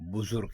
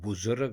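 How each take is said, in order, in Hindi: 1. दूसरा स्वर 'u' की आवाज़ है। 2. दूसरा स्वर 'a' की आवाज़ है। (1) "रे के ऊपर भी पेश ... दुरुस्त" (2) "रे के ऊपर ज़बर ... गलत"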